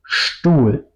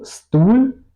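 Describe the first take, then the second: First: Slow "Stuhl" opening on SH, "shtool". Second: "Stuhl" with a plain hissed S, "stool", rising; wrong S in Stuhl. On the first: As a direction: say "Stuhl" as "shtul", falling, hushed SHT onset. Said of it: "digo Stuhl". ("Stuhl" con SH inicial, "shtul") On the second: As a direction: say "Stuhl" as "stul", S instead of SH. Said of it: "No digo Stuhl". ("Stuhl" con S simple, "stul") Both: Shown as a demonstration.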